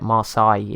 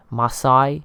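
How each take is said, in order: First: Marseille as mar-SAY with an English r; English pronunciation. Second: Marseille as mar-SAI, French style with the r dropped, through a laugh; French accent attempt. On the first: Shown as a demonstration. Explaining how he says Marseille, plain English accent. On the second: Unsure of a French city name, laughing mock French accent. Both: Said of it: "I just say it Marseille in English accent".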